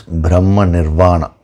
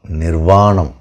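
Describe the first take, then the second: First: Nirvana said short, ending on the open a; Nirvana, cut off before the m; Nirvana without final m. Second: Nirvanam, full Sanskrit ending with a closing m and falling tune; Nirvanam, correcting it, landing on the final m. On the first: Teacher's first try, Nirvana said short. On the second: Teacher corrects himself to Sanskrit Nirvanam. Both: Shown as a demonstration.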